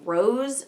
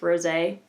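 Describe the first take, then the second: First: The word ends without a final vowel sound. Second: The word ends with a clear final vowel sound. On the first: The speaker calls it wrong. "I've heard a lot of people pronouncing this Rose Champagne" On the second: The speaker calls it right. "there's a little, little like doohickey over the uh, over the E, so it's it's Rosé"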